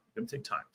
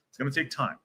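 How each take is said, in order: First: Whispered. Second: Said in the usual way. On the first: Shown as a demonstration. Repeats reassurance, whispered.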